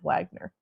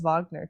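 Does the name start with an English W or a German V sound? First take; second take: English W; German V. First: The name starts with an English W sound. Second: The name starts with a German-style V sound. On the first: "instead of Wagner" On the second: "everything is just Wagner to me"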